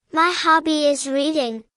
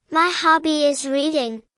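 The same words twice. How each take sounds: The two takes are said the same way.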